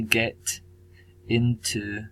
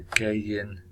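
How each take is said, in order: First: Said in the usual way. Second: "Gaiyin" blended into one word, the T dropped and a Y sound added; Chinese-sounding pronunciation. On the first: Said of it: "dropping the T". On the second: Shown as a demonstration. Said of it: "is more, um, Chinese sounding pronunciation".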